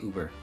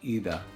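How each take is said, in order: First: The first vowel is a plain English oo. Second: The first vowel is a rounded German ü. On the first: "in English, you just say Uber" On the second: "in German, it's actually über"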